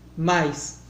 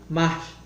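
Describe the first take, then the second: First: The word ends with an s sound. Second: The word ends with a breathy h sound.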